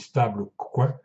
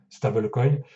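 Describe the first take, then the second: First: The word is pronounced the French way. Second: The word is pronounced the English way. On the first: "si vous la prononcez à la française" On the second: "c'est la prononciation anglaise"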